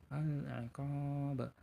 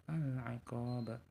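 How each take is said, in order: The two takes are said the same way.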